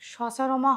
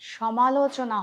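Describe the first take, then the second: First: The word is garbled into the shorter form sacharma. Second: The word is said in full as samalochana. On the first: The speaker calls it wrong. "উচ্চারণটা সচারমা হবে না" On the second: The speaker calls it right. "সমালোচনা হবে"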